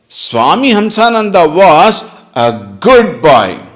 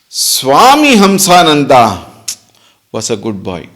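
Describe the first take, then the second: First: The stress falls on the word good. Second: The stress falls on the name Swami Hamsananda. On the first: "Meaning what? He is bad now" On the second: "Now where is the focus? Swami Hamsananda"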